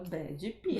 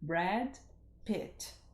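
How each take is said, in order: First: Extra vowel sounds follow the final consonants, Brazilian style. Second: The name ends in plain consonants, American style. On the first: The speaker calls it wrong. "Aí a gente fala Brad Pitt" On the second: The speaker calls it right. "deixa eu tentar falar com o sotaque daqui"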